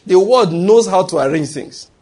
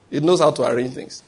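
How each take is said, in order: First: "word knows" punched high and loud; emphatic. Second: Said in the usual way. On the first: Real, not acted. Preacher hammering home his point to Christians, emphatic stress on "word". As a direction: drive home "The word knows", higher and louder. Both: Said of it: "That's what I'm gonna emphasize by that".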